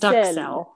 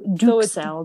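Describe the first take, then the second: First: The first vowel is not an 'ooh' sound. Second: The first vowel is a rounded 'ooh' sound. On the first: The speaker calls it wrong. "so not d'uxelles" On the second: The speaker calls it right. "A U in French has a very ooh. Ooh"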